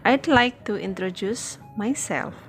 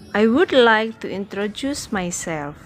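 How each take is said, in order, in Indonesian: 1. "I would" disingkat menjadi satu suku kata. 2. "I would" diucapkan sebagai dua kata penuh.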